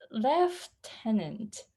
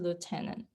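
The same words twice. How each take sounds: First: The first syllable has an f sound. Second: The first syllable has no f sound. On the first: "It has F in it" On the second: "in um American English, it's a lieutenant"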